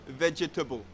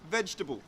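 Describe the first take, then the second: First: It is said with four syllables. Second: It is said with three syllables. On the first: The speaker calls it wrong. "we don't say vegetable. Vegetable is incorrect" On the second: The speaker calls it right. "We get rid of that second syllable, that air sound"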